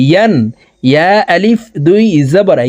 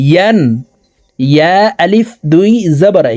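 Both takes have the same delivery.

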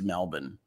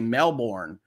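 First: Melbourne is said with an Australian-style pronunciation. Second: Melbourne is said with an American pronunciation.

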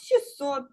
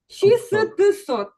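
First: The middle consonant cluster is simplified. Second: Every consonant of the middle cluster is pronounced. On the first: This is how the word is said in everyday speech. "в усному мовленні я кажу" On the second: This is how the word is written. "Я проговорила так, як буду писати"

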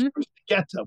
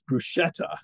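First: The middle consonant is a k sound. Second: The middle consonant is an sh sound. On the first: The speaker calls it right. "bruschetta with a K sound" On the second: The speaker calls it wrong. "what we said was bruschetta"

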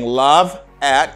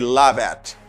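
First: The two words are said separately. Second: The V sound runs straight into the next word. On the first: The speaker calls it wrong. "Instead of saying love at" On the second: The speaker calls it right. "you say love at. Love at because the last sound you hear is a V sound"

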